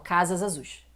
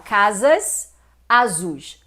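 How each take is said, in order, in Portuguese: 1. O S final emenda direto na vogal seguinte. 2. As duas palavras são ditas separadamente, sem juntar. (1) "Uma coisa unindo a outra" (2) "você não fala casas azuis"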